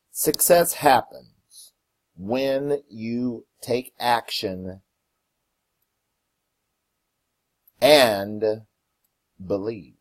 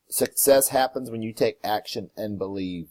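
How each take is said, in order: First: Slow reading with long pauses between phrases; slow, deliberate quote. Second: Said in the usual way. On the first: Real, not acted. Host reading the quote of the day to listeners, slow and deliberate. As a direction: read it word by word, letting each phrase land.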